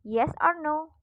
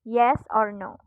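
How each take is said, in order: First: YES OR NO with a rising tone. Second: YES OR NO with a falling tone. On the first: Teacher showing students the rise, rising tone. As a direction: let "yes or no" lift in pitch. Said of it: "Breathe, yes or no". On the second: Teacher showing students the fall, falling tone. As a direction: let "yes or no" drop in pitch. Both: Shown as a demonstration.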